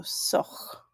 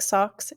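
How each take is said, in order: First: Soch whispered, the final X a harsh glottalized rasp. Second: Said in the usual way. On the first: Shown as a demonstration. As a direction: end soch with a tight glottal X sound. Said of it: "remember that the X has that glottalized sound". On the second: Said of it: "looks like you would wanna say socks".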